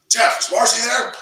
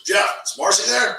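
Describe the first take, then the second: First: Higher and louder mock-serious ask; a teasing impression of the serious coach, higher and louder; all serious. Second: A lightly raised, mock-serious coach voice; poking fun at a serious friend, mildly high and loud; serious Bob. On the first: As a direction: tease his all-business manner, pitched up high. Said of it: "the way he is, all serious". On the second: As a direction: imitate a friend's all-business tone, a little higher. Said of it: "And Bob goes".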